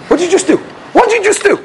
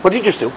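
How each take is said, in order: First: Repeated, climbing much higher each time; rising disbelief. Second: Said in the usual way. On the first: Retold or imitated. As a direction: build from shock to outrage. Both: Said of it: "I'm like".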